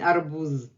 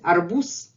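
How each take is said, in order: First: The final consonant is a voiced z sound. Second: The final consonant is a voiceless s sound. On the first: The speaker calls it wrong. "I'm not saying arbuz" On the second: The speaker calls it right. "but at the end, it becomes voiceless"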